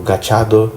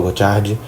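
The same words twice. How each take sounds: First: Gachado ending in "-do"; pronúncia rejeitada. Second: Gachard ending in "-di"; pronúncia preferida. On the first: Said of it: "eu não falo Gachado". (Gachado terminando em "do") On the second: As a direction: say Gachard as "ga-CHAR-di". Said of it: "eu falo Gachard". (Gachard com final "di") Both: Shown as a demonstration.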